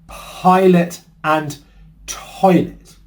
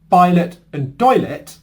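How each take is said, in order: First: The second word starts with a crisp T sound. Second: The second word starts with a soft D-like sound. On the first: The speaker calls it right. "That is how you pronounce the P and the T sounds like a native" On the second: The speaker calls it wrong. "what was said or what was heard"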